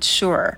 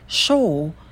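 First: It is said with an American vowel. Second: It is said with a long British o vowel. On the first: "Если вы предпочитаете американский вариант, то это будет sure" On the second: "Если британский, то там долгий звук о"

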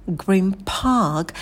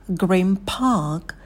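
No difference in how they are said.

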